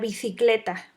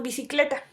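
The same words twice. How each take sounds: First: The middle consonant sounds like a 'th'. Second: The middle consonant sounds like an 's'. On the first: "Si fuéramos españoles, ... sería el interdental" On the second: "el fonema nosotros lo escuchamos así"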